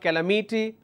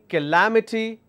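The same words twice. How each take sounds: First: The stress is not on the second syllable. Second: The stress is on the second syllable. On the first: The speaker calls it wrong. "instead of calamity" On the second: The speaker calls it right. "why am I saying calamity"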